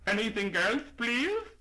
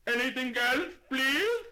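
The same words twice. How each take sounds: First: High, loud polite shopkeeper asking; brisk shop-counter voice, pitched up and raised. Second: High, very loud shopkeeper shouting; ear-splitting shout. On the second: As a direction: bellow it at a deaf old lady. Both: Acted. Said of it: "lifted his voice to an ear-splitting shout".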